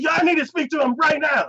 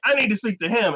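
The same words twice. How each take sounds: First: Much higher, raised-voice insistence; mock angry demand. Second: Higher-pitched mock demand; insistent demand. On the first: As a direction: imitate an escalating, indignant demand. Demand escalates after refusal. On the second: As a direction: imitate a woman demanding access. Woman demands access from receptionist.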